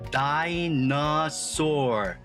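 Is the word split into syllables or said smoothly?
split. Each syllable is said separately with breaks. "같이 음절로 소리내서 읽어볼게요"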